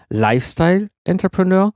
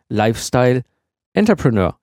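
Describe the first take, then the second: First: "Lifestyle Entrepreneur" run together as one term; stress on Lifestyle. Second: "Lifestyle", pause, then "Entrepreneur" on its own; split-name stress. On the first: Host showing one reading of the name, stress on "Lifestyle". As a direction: lean on "Lifestyle", letting "Entrepreneur" follow. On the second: Host showing the other reading, pause before a separately stressed "Entrepreneur". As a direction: break before "Entrepreneur" as if a colon stood there. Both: Shown as a demonstration. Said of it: "von der Betonung her".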